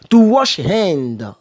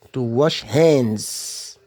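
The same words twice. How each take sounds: First: Said in the usual way. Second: "hands" said slowly with a clear final S. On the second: Shown as a demonstration. Teacher corrects hand to hands for learners. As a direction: stretch out "to wash hands", leaning on the S of "hands". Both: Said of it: "Mettez toujours S à hands".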